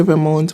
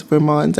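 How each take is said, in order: First: "Vermont" ending like the word "mount"; Vermont said as "ver-MOUNT". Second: "Vermont" with open "ah" before the "nt"; Vermont said as "ver-MAHNT". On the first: Vlogger tells viewers both versions match, "Vermont" as ver-MOUNT. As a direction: rhyme "Vermont" with "amount". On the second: Vlogger tells viewers both versions match, "Vermont" as ver-MAHNT. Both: Shown as a demonstration. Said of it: "are the same thing".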